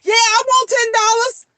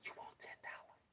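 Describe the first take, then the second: First: High, loud, eager answer; eager kid's reply. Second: Hushed, voiceless whisper. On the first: Acted. Kid jumps at a whispered ten-dollar offer, eagerly. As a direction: pipe up instantly, high and keen. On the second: Shown as a demonstration. Mother shows how kids hear a quiet offer, whispering. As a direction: whisper it barely audibly. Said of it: "you can whisper".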